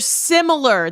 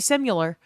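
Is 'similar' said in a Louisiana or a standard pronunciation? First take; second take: standard; Louisiana. First: It uses the standard general pronunciation. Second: It uses the Louisiana local pronunciation. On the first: The speaker calls it right. "They're similar" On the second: The speaker calls it wrong. "that's how people in Louisiana say it"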